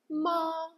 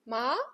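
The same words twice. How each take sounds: First: The pitch stays high and level. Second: The pitch rises smoothly upward. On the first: "the first one, which sounds flat" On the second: "the second tone rises, like you are asking a question"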